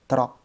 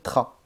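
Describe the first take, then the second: First: The R is rolled with the tongue tip. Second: The R is made at the back of the throat. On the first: The speaker calls it right. "tu vas dire trabajo" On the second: The speaker calls it wrong. "tu ne vas pas dire tra"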